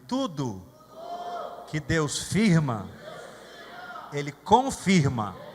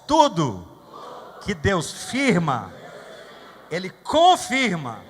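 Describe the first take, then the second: First: It is said at a normal volume. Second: It is said louder and more forcefully.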